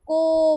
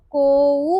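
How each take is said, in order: First: को as one long, steady ओ; long vowel. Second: कोऊ with a loud, audible ऊ glide at the end; split vowels. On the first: Teacher showing how to pronounce it, को drawn out evenly. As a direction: hold को long with no ऊ at the end. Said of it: "आप इसको को pronounce करोगे". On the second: Teacher showing what not to pronounce, कोऊ ending in a clear ऊ. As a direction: stretch कोऊ and sound the final ऊ. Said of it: "pronounce नहीं करोगे". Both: Shown as a demonstration.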